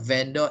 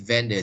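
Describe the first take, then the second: First: The second syllable has a full vowel. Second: The second syllable is reduced to a weak 'dr'. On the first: The speaker calls it wrong. "it's not vendor" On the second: The speaker calls it right. "V E N D R"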